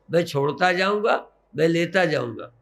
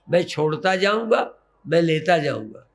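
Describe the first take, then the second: No difference in how they are said.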